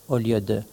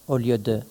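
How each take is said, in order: The two takes are said the same way.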